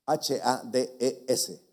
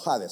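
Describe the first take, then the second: First: Spelled out. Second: Hades said with a sounded H, jota-like. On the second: Pastor showing the H sound of Hades to the congregation, carefully. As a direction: breathe an h sound at the start of Hades. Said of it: "si usted quiere sonar la H". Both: Shown as a demonstration.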